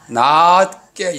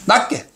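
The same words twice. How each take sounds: First: The first vowel is said long. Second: The first vowel is said short. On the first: The speaker calls it right. "낮자를 길면 길수록 좋아요" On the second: The speaker calls it wrong. "짧게 하면 이렇게 돼"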